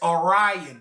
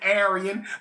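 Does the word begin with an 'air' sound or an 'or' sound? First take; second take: or; air. First: The word begins with an 'or' sound. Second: The word begins with an 'air' sound. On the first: The speaker calls it right. "but the real word is Orion" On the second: The speaker calls it wrong. "We pronounce it Aryan"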